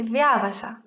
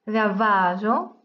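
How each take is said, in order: First: Viavaja with the stress moved back to "via"; accent the third-from-last syllable of viavaja. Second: Viavaggio with the stress on "va"; drawn-out Viavaggio, leaning on the next-to-last syllable. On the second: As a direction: say Viavaggio slowly as via-VA-ggio. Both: Shown as a demonstration. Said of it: "l'accent a changé".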